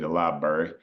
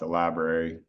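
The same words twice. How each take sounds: First: It is said in an East Tennessee accent. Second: It is said in a standard American accent.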